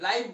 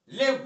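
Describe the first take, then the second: First: The vowel sounds like the one in 'eye'. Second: The vowel sounds like the one in 'it'. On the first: It means happening in real time. "इसको यहां तक तो लाइव बोलेंगे" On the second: It means to stay alive or reside. "जीवित रहने के लिए जब आएगा ये तो लिव बोलेंगे"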